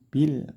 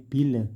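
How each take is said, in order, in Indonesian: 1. Kata itu berakhir bersih pada bunyi l. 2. Setelah l terakhir ada vokal pendek tambahan. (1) "tapi bil kafirin" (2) "tidak boleh bil, tidak pakai le"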